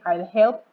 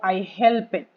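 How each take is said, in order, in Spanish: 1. La terminación no agrega ninguna sílaba extra a helped. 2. La terminación se pronuncia como una sílaba extra.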